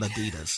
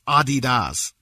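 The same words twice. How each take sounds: First: Adidas is said the American way. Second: Adidas is said the non-American way. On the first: The speaker calls it wrong. "Americans pronounce Adidas wrong" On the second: The speaker calls it right. "It's Adidas"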